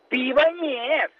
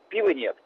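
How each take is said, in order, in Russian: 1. Произносится с тревогой, драматично. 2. Произносится спокойно, буднично. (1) "Так они говорят" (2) "Можно сказать"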